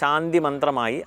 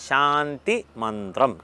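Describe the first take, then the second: First: It is said in a casual everyday pronunciation. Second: It is said in a careful recitation pronunciation. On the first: The speaker calls it wrong. "പറഞ്ഞ് പറഞ്ഞ് ശാന്തി മന്ത്രമായി" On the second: The speaker calls it right. "അതങ്ങനെയല്ല"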